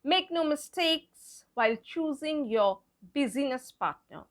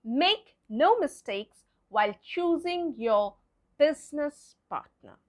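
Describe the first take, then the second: First: BUSINESS wrongly sounded in three syllables, BIZ-ee-nis; wrong pronunciation. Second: BUSINESS in two syllables, BIZ-nis; correct pronunciation. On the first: Teacher showing learners what not to say, wrong pronunciation of BUSINESS as BIZ-ee-nis. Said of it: "It's not". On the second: Teacher giving learners the corrected sentence, BUSINESS said properly as BIZ-nis. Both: Shown as a demonstration.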